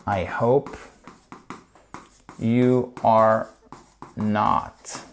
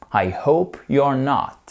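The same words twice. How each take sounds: First: Word by word. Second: Said in the usual way. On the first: Shown as a demonstration. Teacher repeats the English phrase for learners, slowly word by word. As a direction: spell out YOU ARE in full, separately.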